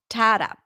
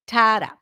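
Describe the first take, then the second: No difference in how they are said.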